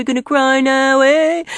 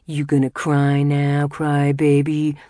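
First: Put-on very high, loud babyish jeer; high singsong taunt. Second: Loud, sneering jibe; taunting. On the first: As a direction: squeal it mockingly, rising on eh. Jamil mocks crying Boutros. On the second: Acted. Jamil taunts teary Boutros.

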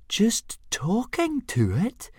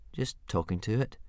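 First: Much higher, slow, incredulous squeak; astonished gasp. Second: Softer, sheepish mumble; embarrassed mumble. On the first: Fishlegs astonished that Hiccup talks to a dragon, incredulous. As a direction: gasp it out in disbelief. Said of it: "gasped Fishlegs in astonishment". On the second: Hiccup caught talking to his dragon, mumbling embarrassed. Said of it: "mumbled Hiccup, very embarrassed". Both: Acted.

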